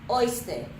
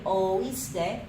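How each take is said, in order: First: The o and i blend into one syllable. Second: The o and i are said as separate syllables. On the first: The speaker calls it wrong. "If we didn't have the accent there and we wanted to just pronounce the word like this" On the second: The speaker calls it right. "So it needs to be oíste. So that accent just separates those vowels for us"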